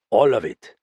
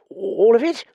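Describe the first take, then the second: First: Said in the usual way. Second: High, louder, reluctant query; dismayed question. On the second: Acted. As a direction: ask in high-voiced dismay. Reluctant Dallings questions the request.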